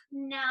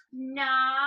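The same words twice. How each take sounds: First: Squished-face Nala. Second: Nala through a wrinkled nose; squished-face Nala. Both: Shown as a demonstration. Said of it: "squish your face up".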